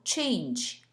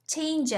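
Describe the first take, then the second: First: "change" with lips pushed forward; corrected "change". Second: "Change" with unrounded, relaxed lips; accented "Change" with no lip rounding; wrong "Change". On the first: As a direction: round the opening sound of "change". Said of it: "입을 쑥 내밀어서". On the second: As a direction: say "Change" without pushing the lips out. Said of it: "Change 아니고 change". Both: Shown as a demonstration.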